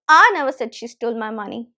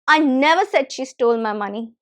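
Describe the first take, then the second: First: The word "I" carries the main stress. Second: The word "never" carries the main stress. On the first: Someone else said it. "So if I stress I" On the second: The claim is totally wrong; nothing was stolen. "When I'm stressing the second word never"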